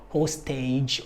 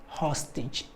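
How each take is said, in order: First: "hostage" as HOE-STAYJ, long O first; mispronounced hostage. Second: Said in the usual way. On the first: Shown as a demonstration. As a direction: say "hostage" with "host" and a full "age". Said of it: "it's, it's not". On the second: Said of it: "it's not forage or lineage or hostage".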